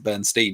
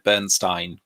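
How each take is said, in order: First: The last syllable rhymes with 'seen'. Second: The last syllable rhymes with 'wine'. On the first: "he might pronounce it Bernstein" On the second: "I've always said Bernstein because I learnt Ger- G C S E German"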